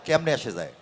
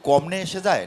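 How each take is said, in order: First: The first word begins with a 'ke' sound. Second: The first word begins with a 'ko' sound. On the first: The speaker calls it right. "ওটা কেমনে এসে যায়" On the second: The speaker calls it wrong. "ওটা কমনে হয়ে যাচ্ছে উচ্চারণটা"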